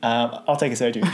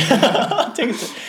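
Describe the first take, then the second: First: Said in the usual way. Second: High laughing voice. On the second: Retold or imitated. Asking the manager for soju, laughing. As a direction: laugh through it.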